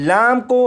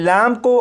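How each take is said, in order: No difference in how they are said.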